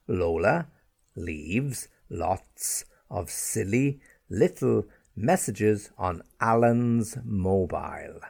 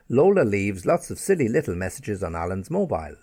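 First: The sentence is spoken at a slower pace. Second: The sentence is spoken at a quicker pace. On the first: "A little slower. Hear it just to listen to the sounds" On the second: "A little bit quicker"

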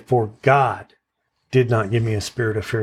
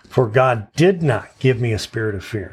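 First: The stress is on "God". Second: The stress is on "did".

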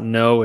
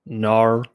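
First: The word ends in a plain vowel, no R. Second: The word ends with a slight R sound. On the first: "It's not no" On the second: "it's gnar. A little bit"

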